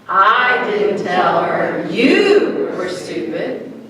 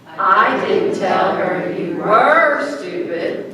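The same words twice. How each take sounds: First: The stress is on you. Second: The stress is on were.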